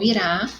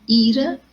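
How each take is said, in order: First: "irá" with final RÁ stressed; stress on last syllable. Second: "ira" with the opening I stressed; stress on first syllable. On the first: Teacher showing the future tense, "irá" stressed on RÁ. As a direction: land on the RÁ of "irá", i-RÁ. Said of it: "vai ter acento no rá". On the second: Teacher showing the noun for anger, "ira" stressed on I. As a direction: lean on the I of "ira", I-ra. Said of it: "sílaba mais forte, o i". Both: Shown as a demonstration.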